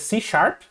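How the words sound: The name is said with English pronunciation. "em inglês seria C Sharp"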